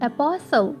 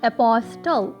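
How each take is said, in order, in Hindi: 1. T की ध्वनि बोली नहीं जाती। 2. T की ध्वनि साफ़ बोली जाती है। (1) "it is apostle, क्योंकि T S T L E के कॉम्बिनेशन में आ गया" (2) "it is not apostle"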